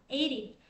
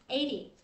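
First: It is said with an American accent. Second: The same.

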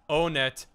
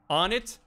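First: Two syllables, starting with a long 'oh' sound. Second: Two syllables, starting with a short 'o' sound. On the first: "I always pronounced it own it" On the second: "on it is kind of goofy"

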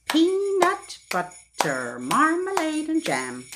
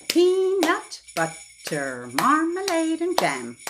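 Both takes have the same delivery.

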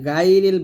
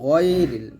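First: The first syllable is light and thin. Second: The first syllable is heavy and thick. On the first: The speaker calls it wrong. "এখানে গায়রিল বলবেন না" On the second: The speaker calls it right. "গয় মোটা করে"

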